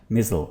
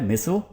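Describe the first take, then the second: First: मिजल with a buzzed z, not s; z-sound pronunciation. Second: मिसल with a hissed s, not z; s-sound pronunciation. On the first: Teacher shows the z variant, z-sound pronunciation. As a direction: say मिजल as MIZ-ul. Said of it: "जेड की भी sound आती है". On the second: Teacher shows the s variant, s-sound pronunciation. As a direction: say मिसल as MISS-ul. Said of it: "एस की भी sound आती है". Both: Shown as a demonstration.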